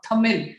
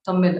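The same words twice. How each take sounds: First: The word begins with a plain hard T sound. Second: The word begins with a soft TH sound. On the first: The speaker calls it wrong. "it's not pronounced as tamil" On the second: The speaker calls it right. "it's the th- tamil"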